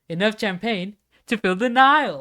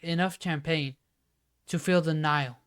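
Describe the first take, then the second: First: It is said with lively, varied expression. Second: It is said in one flat, unchanging tone. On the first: The speaker calls it right. "You should have been like" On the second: The speaker calls it wrong. "like I kept in the same tone"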